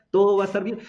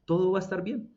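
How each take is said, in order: First: Louder and higher, "Todo va a estar bien" hammered home; emphatic. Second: Said in the usual way. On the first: Shown as a demonstration. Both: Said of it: "Eso significa".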